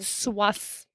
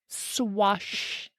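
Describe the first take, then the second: First: The first syllable ends with an 's' sound. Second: The first syllable ends with an 'sh' sound.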